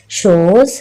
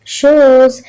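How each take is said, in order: First: Said in the usual way. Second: शोज held as a single long, higher beat; one drawn-out syllable. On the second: Shown as a demonstration. Teacher showing children one syllable, शोज drawn out whole. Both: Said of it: "इसमें one ही syllable है".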